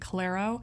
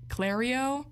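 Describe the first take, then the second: First: There is no extra 'ee' sound before the 'o'. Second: There is an extra 'ee' sound before the 'o'. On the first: The speaker calls it right. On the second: The speaker calls it wrong.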